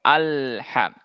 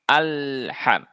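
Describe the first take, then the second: Both takes have the same delivery.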